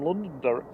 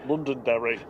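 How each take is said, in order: First: Londonderry broken by a hiccup; a hiccup catches Londonderry; hiccup mid-word. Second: Said in the usual way. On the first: Real, not acted. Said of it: "I just hiccuped at the same time as saying Londonderry". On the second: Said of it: "I just hiccuped".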